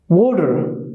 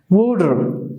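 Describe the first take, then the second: Both takes have the same delivery.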